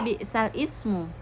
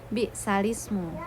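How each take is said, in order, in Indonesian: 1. Kedua kata itu dibaca terpisah. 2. Kedua kata itu dibaca disambung. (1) "bukan dibaca bi'sal ismu" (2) "melainkan bi'salismu"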